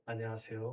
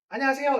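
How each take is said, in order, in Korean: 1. 이 인사는 부드럽고 세련되게 들려요. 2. 이 인사는 담백하고 투박하게 들려요. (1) "이게 훨씬 듣기 좋잖아요" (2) "이거보다는"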